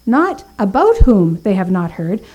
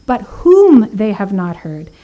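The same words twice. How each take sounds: First: "about" pushed up with a rising tune; contrasting emphasis on "about"; stress on ABOUT. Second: "whom" hit loud and drawn out, slow delivery; slow, emphatic "whom"; stress on WHOM. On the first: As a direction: lean into the word "about" to show the wrong reading. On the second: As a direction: land hard on "whom" to correct the reading. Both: Shown as a demonstration.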